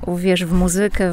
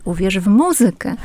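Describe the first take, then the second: First: Muzykę stressed on the middle syllable, ZY; casual mu-ZY-kę, second syllable from the end. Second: Muzykę stressed on its first syllable, MU; careful standard MU-zykę, pitch peaking on MU. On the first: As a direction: lean on ZY in muzykę. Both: Shown as a demonstration. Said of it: "ten akcent byłby na drugą, a nie na trzecią".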